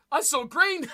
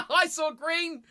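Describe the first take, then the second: First: Said in the usual way. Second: Laughing self-mockery. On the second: Real, not acted. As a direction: laugh at your own mistake.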